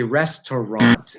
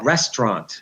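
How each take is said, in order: First: "restaurant" as "res-ter-ront", middle vowel sounded; full three-syllable RESTAURANT. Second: "restaurant" squeezed to "REST-ront"; two-syllable RESTAURANT. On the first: Teacher showing how it should be, full pronunciation. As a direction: give "restaurant" every syllable. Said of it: "but really it should be". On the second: Teacher showing lazy English pronunciation, two syllables. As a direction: drop the middle vowel of "restaurant". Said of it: "two syllables". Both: Shown as a demonstration.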